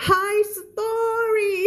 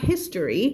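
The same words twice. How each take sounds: First: High-pitched, long-drawn "high story"; ครูเพนสี. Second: History said plainly with a short "his" at the front; standard reading. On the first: Retold or imitated. Teacher mimics another teacher's reading of history, high drawn-out impression. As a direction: stretch "high story" out in a high mock voice. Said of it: "อ่านแบบครูเพนสีอ่านว่า". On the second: Shown as a demonstration. Teacher models her own reading for students, standard history. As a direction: say "HIS-tuh-ree", stress up front. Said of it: "คำนี้อ่านแบบ[name]อ่านว่า".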